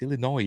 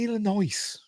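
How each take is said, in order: First: The final S sound is silent. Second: The final S sound is pronounced. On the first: The speaker calls it right. "You don't pronounce the S" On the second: The speaker calls it wrong. "I always say Illinois ... I always do accidentally"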